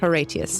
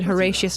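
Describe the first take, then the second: First: The name is pronounced in a strict Latin style. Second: The name is pronounced in a plain English style. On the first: This is the extremely Latin way the game avoids. The speaker calls it wrong. "not Horatius" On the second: This is how the game itself says the name. The speaker calls it right. "they're not, because she said Horatius"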